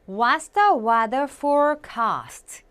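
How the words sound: It is said with a British accent.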